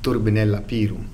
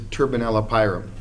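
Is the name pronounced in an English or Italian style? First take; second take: Italian; English. First: The name is pronounced in an Italian style. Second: The name is pronounced in an English style. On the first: The speaker calls it right. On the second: The speaker calls it wrong.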